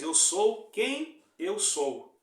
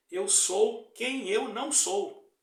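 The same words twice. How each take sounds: First: "Eu sou quem eu sou" very slow and louder, each word weighted; solemn divine quote. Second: Devil's mocking twist, slow and louder in an altered voice. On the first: Acted. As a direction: proclaim it slowly like God to Moses. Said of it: "o Senhor falou pra Moisés". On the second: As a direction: sneer it as the devil would. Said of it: "o diabo ... quer que seja assim".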